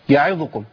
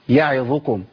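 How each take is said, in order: First: The short vowels are clipped and rushed. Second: The short vowels are given their full length. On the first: The speaker calls it wrong. "بنسمع كتير من الناس يقول يعيدكم يعيدكم، هو جرب الحركات" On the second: The speaker calls it right. "طب هي اصلا ايه؟"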